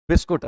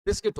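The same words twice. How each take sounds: First: बिस्कुट said with u in the second syllable, low; rustic बिस्कुट, biss-koot; desi pronunciation. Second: बिस्किट said with i, biss-kit; teacher giving proper बिस्किट; standard pronunciation. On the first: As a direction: play the village way, बिस्कुट. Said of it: "अपना देसी क्या है?". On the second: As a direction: correct बिस्किट, short clear i. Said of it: "इसका शुद्ध उच्चारण बिस्कुट नहीं". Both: Shown as a demonstration.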